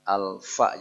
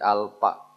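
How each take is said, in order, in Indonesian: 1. Konsonan tengah itu bunyi f. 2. Konsonan tengah itu bunyi p. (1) "Alfa jadi alpa" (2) "jadi alpa"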